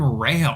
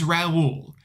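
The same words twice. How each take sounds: First: Raul said as "Rail", one syllable; mispronounced as Rail. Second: "Raul" in two syllables, ra-OOL; correct name Raul. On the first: Retold or imitated. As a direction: say "Rail" to rhyme with pale. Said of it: "she keeps calling him Rail". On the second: Shown as a demonstration. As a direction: stress the second syllable of "Raul", rhyming with cool. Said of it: "His name is Raul".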